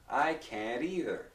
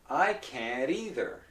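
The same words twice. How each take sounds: Both takes have the same delivery.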